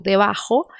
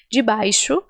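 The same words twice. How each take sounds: First: Debaixo said as Spanish "debajo", with a throaty j; Spanish j in "debaixo", like a rasped h; Spanish pronunciation. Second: Debaixo said "djee-BYE-shoo"; Brazilian Portuguese pronunciation. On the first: Teacher shows learners the story's word, in Spanish pronunciation. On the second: Teacher translates for learners, in Brazilian Portuguese pronunciation. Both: Shown as a demonstration.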